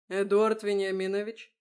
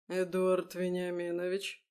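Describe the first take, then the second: First: «Эдуард Вениаминович» called loud and crisp, rising; loud and clear. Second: Said in the usual way. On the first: A narrator's reading. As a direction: address him firmly and clearly. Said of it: "громко и чётко произнёс он". («Эдуард Вениаминович» громко и чётко) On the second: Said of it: "поднял бровь он".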